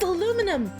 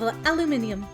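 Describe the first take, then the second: First: The word is said with four syllables. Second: The word is said with five syllables. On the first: "I know what you're going to say, but that's aluminum" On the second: "I don't know why I say aluminium"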